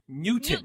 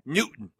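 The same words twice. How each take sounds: First: The second syllable's vowel is fully pronounced. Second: The second syllable's vowel is dropped. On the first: "I say Newton" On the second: "the way everyone pronounces it is N-E-W-T apostrophe N"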